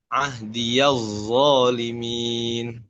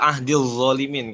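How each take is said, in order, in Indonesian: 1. 'Ya' dibaca dengan vokal 'a'. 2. Bunyi 'ya' dihilangkan, langsung menyambung ke zalimin. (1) "di riwayat Syu'bah dengan membaca huruf eh, harokat fathah" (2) "Dalam riwayat Imam Hafs ya ... Dibaca ahdil zalimin"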